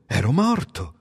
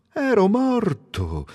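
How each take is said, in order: First: Said in the usual way. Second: Ero morto drawn out slowly and high, stress on ero; slow, higher echo of ero morto; slow marveling repeat. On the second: Acted. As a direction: savour the realisation.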